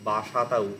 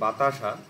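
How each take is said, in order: First: The t sound comes in the third syllable. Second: The t sound comes in the second syllable. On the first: "সেটাকে অনেকে বাসাতা উচ্চারণ করে" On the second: "কথাটা বাসা মানে বাতাসা"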